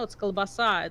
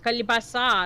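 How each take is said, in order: First: No vowel comes before the l sound. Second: An extra vowel comes before the l sound. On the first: The speaker calls it right. "no, it's kalbasa" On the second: The speaker calls it wrong. "he was trying to say"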